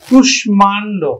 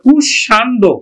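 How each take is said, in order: First: The m is clearly sounded after the sh. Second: The m is silent, with doubled sh and nasalization. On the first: The speaker calls it right. "আমরা উচ্চারণ করি কিন্তু কুষ্মাণ্ড" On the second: The speaker calls it wrong. "ম ফলা অনুযায়ী কিন্তু এটা কুষাণ্ড"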